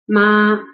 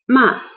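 First: The pitch stays high and level. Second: The pitch drops sharply from high to low. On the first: "The first flat tone" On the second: "the fourth dropping tone is ma"

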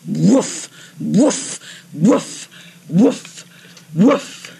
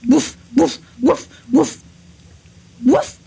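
First: The barks are lively, vibrant and full of pomp. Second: There is a hesitation before the last bark.

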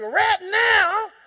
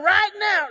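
First: It is said in a country accent. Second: It is said in his plain accent.

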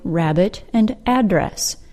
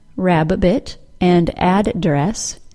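First: Each double consonant is pronounced as one sound. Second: Each double consonant is pronounced as two sounds. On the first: The speaker calls it right. "we pronounce both letters as one single sound" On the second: The speaker calls it wrong. "not rabbit and address"

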